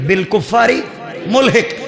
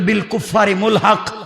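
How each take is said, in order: First: The last word ends with an 'i' vowel sound. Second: The last word ends with an 'a' vowel sound. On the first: The speaker calls it wrong. "পড়া হয় মুলহিক" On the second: The speaker calls it right. "শব্দটা ছিল বিল কুফারি মুলহাক"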